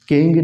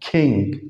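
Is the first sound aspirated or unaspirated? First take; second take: unaspirated; aspirated. First: The first sound has no puff of air. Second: The first sound has a puff of air. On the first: The speaker calls it wrong. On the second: The speaker calls it right.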